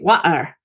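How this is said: It is said in a Cockney accent. "In um, Cockney, you say"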